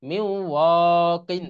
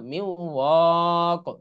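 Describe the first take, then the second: First: "কিন" sounded in full with its n ending; continued reading ending. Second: "ওয়া" held, then stopped on a bare "ক"; stopping pronunciation. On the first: Teacher showing the first way to read it, full ending on "কিন". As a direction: say "কিন" as a full syllable closing on n. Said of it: "এরকম পড়া যায় অথবা". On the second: Teacher showing how everyone usually stops, ending on bare "ক". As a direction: cut the ending to a lone q sound on "ক". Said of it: "সাধারণত থেমে পড়ে সবাই". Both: Shown as a demonstration.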